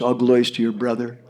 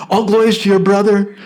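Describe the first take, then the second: First: Said in the usual way. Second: Louder, laughing through the words; all glories to your brother, with a chuckle; cheerful laughing blessing. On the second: Acted. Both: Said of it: "They spoke like that".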